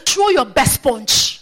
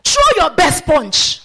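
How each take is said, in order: First: Steady, slow dare; bold challenge. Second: Loud, high, slow dare to the devil; bold challenge. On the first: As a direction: stretch out the challenge without shouting. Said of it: "if you don't speak like that". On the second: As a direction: hurl the challenge out like a lion. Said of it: "bold as a lion". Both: Acted.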